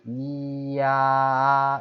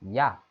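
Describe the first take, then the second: First: It is said slowly, gliding from i to a. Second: It is said quickly as one short syllable. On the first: "실제로는 이야 이렇게 되는 거죠" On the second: "이거를 빨리 발음하면 야 이렇게 되는 거죠"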